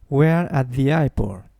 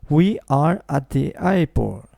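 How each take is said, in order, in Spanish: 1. We're se dice como una sílaba corta. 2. We are se dice como dos palabras completas. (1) "Digo We're at the airport" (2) "no digo We are at the airport"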